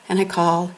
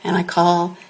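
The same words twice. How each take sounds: The two takes are said the same way.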